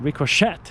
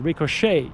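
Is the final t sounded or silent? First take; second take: sounded; silent. First: The final t is sounded. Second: The final t is silent. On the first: The speaker calls it wrong. "not ricochet" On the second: The speaker calls it right. "but ricochet, It's French"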